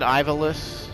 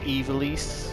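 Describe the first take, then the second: First: The name has an anglicized pronunciation. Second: The name has a Japanese-style pronunciation. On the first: "I've always said Ivalus" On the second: "it's pronounced Evilis, which I think is a dumb way to say it"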